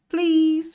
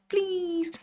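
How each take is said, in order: First: It is said bluntly, not sweetly. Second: It is said sweetly and nicely.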